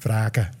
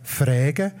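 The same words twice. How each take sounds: First: It is said in the Southwest Walser dialect. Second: It is said in the Prättigau-Davos dialect.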